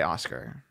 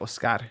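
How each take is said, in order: First: The name is said with a plain English pronunciation. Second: The name is said with a Latin pronunciation. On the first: This is how the speaker himself says his name. "I would just say Oscar" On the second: This is how the speaker's parents say his name. "my mom and my dad say Oscar"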